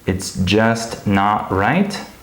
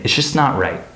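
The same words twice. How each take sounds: First: The word 'just' is pronounced fully and clearly. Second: The word 'just' is quick and reduced. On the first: The speaker calls it wrong. "I wouldn't pronounce it like that" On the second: The speaker calls it right. "I would say"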